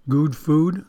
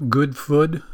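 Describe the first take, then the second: First: "good" as "gooed", rhyming with "food"; long vowel in good. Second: "food" rhymed with "good", short oo; short vowel in food. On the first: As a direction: stretch "good" to a long oo, slowly, rising at the end. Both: Shown as a demonstration. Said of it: "shouldn't that be right?".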